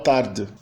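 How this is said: It is said with a European Portuguese accent.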